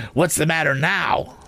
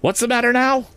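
First: High, pert questioning from a scolding sister; smart, sharp demand. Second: Very high-pitched, exasperated questioning; very sharp demand. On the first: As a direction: snap it out smartly, pitched high. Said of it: "she said smartly". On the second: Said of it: "more sharply than before". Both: A narrator's reading.

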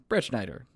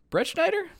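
First: Firm flat landing on "Brett Schneider"; confident, like you nailed it; "Brett Schneider" stated, settled fall. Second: Questioning rise on "Schneider"; unsure, test the name with a high rise; "Brett Schneider" asked, sharp rising pitch. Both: Shown as a demonstration. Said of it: "Nailed it".

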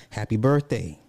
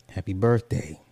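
The two takes are said the same way.

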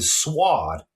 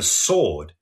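First: Sword said as 'swahd' with a w; imitated Boston-style sword, slow; regional pronunciation. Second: Said in the usual way. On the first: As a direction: draw out sword with a sounded w and open 'ah'. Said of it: "It sounded like". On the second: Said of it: "for sword".

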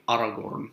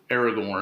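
First: Aragorn starting with an open "ah"; technically correct Aragorn. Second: Aragorn starting with "air"; everyday English Aragorn. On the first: Teacher showing Tolkien's rules, open-vowel Aragorn. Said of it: "technically Aragorn". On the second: Teacher contrasting the usual name, anglicized Aragorn. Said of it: "I mean, technically Aragorn". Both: Shown as a demonstration.

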